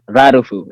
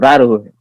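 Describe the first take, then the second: First: The last syllable starts with an f sound. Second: The last syllable starts with an h sound. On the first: This is how most people say the name. "so they call me Rarufu" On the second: This is how older people say the name. "the older people they cannot say F, so it's Raruhu"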